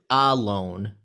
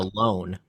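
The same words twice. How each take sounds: First: The stress is on the first syllable. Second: The stress is on the second syllable. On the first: The speaker calls it wrong. "we don't say it" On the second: The speaker calls it right. "we say it"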